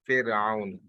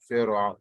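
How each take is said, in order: First: The first vowel is said with spread, smiling lips. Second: The first vowel is said without spread lips. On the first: The speaker calls it right. "It's Fir, Fir'aun. Recite it with a smile" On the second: The speaker calls it wrong. "it's not Pharaoh"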